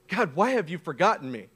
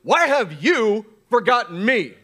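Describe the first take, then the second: First: It is said in a calmer voice. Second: It is said in a tense voice.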